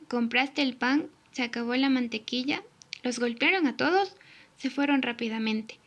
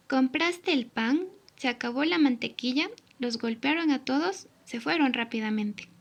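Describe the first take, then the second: First: Monotone example of missing intonation; wrong intonation. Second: Expressive model reading with signs; correct intonation. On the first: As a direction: read "Compraste el pan" flatly as if there were no signs. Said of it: "la forma incorrecta de signos de entonación". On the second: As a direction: lift "Compraste el pan" as a real question. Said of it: "La forma correcta de signos de entonación". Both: Shown as a demonstration.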